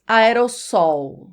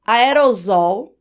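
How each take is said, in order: First: "aerossol" slowly, unvoiced s, a-e-ro-SSOL; aerossol with S sound. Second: "aerosol" slowly, s voiced as z, a-e-ro-ZOL; aerosol with Z sound. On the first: Teacher offering viewers the other option, aerossol with S. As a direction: say "aerossol" with a sharp s before ol. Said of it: "ou você diz aerossol?". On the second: Teacher offering viewers the common form, aerosol with Z. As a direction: say "aerosol" with a buzzing z before ol. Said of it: "aerosol é a forma mais comum". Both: Shown as a demonstration.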